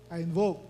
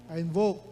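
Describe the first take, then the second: The two takes are said the same way.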